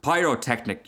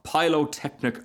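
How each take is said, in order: First: "pyrotechnic" with a clear R, "PIE-ro-technic"; corrected pronunciation. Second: "pyrotechnic" said with an L, as "pylotechnic"; mispronounced word. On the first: Bengal light corrects the Rocket, "pyrotechnic" said with an R. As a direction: say "pyrotechnic" correctly, R after the first vowel. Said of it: "you mean". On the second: Rocket muddles a long word, "pyrotechnic" mispronounced as "pylotechnic". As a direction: slip an L into "pyrotechnic": "PIE-lo-technic". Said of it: "Pyrotechnic, pyrotechnic, you mean". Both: Acted.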